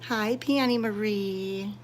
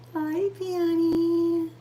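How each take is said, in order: First: Said in the usual way. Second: High, slow cooing at a cat; pet talk. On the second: Real, not acted. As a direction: coo it up high to the kitty.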